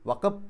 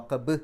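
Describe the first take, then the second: First: The final consonant is touched lightly, without release. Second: The final consonant is released firmly with an echo. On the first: The speaker calls it wrong. "എന്ന് പറഞ്ഞാൽ പോരാ" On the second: The speaker calls it right. "അബ് എന്നുള്ളത് എടുത്ത് പറയണം"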